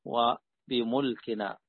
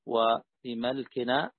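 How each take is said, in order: First: وبملكنا said bi-mulkina, slowly; وبملكنا with a u on the mim; mim with damma. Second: وبملكنا said bi-malkina, slowly; وبملكنا with an a on the mim; mim with fatha. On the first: (وبملكنا بضم الميم) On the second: (وبملكنا بفتح الميم) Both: Shown as a demonstration. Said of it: "مثلث الميم".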